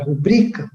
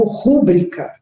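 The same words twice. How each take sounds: First: "rubrica" stressed on the middle syllable BRI. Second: "rúbrica" stressed on the first syllable. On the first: Teacher names the word to split, "rubrica" stressed on BRI. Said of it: "a penúltima é o bri". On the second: Teacher shows how some people pronounce it, "rúbrica" stressed on RU. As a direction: hit the RÚ of "rúbrica". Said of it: "algumas pessoas até pronunciam". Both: Shown as a demonstration.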